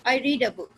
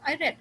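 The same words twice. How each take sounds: First: "read" said REED, punched; long ee vowel in "read"; present-tense read. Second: "read" said RED, with short e; short eh vowel in "read"; past-tense read. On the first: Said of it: "उसी का past tense है रेड". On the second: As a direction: say "read" to rhyme with bed. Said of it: "past tense की बात कर रहा". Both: Shown as a demonstration.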